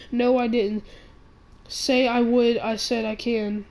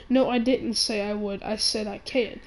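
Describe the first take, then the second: First: "No, I didn't say I would" pushed out loud, then "I said I can" slowed with the stress on "can"; emphatic correction. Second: Said in the usual way. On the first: Retold or imitated. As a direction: insist hard and lean slowly on the word "can". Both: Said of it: "I said, no, I said".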